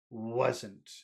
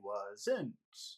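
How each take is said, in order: First: The pitch falls on the word. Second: The pitch rises on the word. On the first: The speaker calls it right. "But really it should just fall down" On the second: The speaker calls it wrong. "the tone that you're using, you're saying wasn't"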